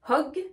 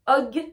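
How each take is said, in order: First: The word starts with a breathy h sound. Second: The word starts without an h sound. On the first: The speaker calls it right. "Je dis hug" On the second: The speaker calls it wrong. "Je ne dis pas hug"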